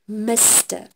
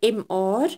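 First: It is spoken as the full word mister. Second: It is spoken as two separate letters. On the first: The speaker calls it right. "I pronounce it Mr" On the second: The speaker calls it wrong. "I don't say MR"

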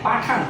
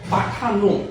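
First: The word ends in a consonant, no final vowel. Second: The word ends with an added 'o' vowel. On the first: The subject is a familiar or intimate pronoun. "এটা উচ্চারণ পাঠান হবে কখন, যদি আমি subject হিসাবে তুচ্ছার্থক বা ঘনিষ্ঠার্থক সর্বনামকে ব্যবহার করি" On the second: The subject is an ordinary pronoun. "তখন এই শব্দটিকে আমাকে উচ্চারণ করতে হবে পাঠানো"

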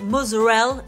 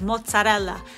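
First: The final vowel is dropped from the word. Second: The final vowel is clearly pronounced.

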